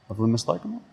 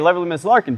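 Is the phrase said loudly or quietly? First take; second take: quietly; loudly. First: The phrase is said quietly, at low volume. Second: The phrase is said loudly, with projected voice. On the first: The speaker calls it wrong. "I'm starting out quietly" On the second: The speaker calls it right. "I'm gonna raise my voice and project it now"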